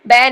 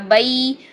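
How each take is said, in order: First: The vowel is one flat sound. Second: The vowel glides from a toward i. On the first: The speaker calls it wrong. "बै बै नहीं है" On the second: The speaker calls it right. "बई, ये साउंड है"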